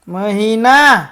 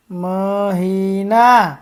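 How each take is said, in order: First: મહિના less stretched, a little louder; loud drill word. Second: મહિના stretched long, every syllable held. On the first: Teacher leads children to repeat after them, loudly. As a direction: call out મહિના for the class to echo. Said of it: "બોલજો જોરથી". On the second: First slow reading of the word list. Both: Shown as a demonstration.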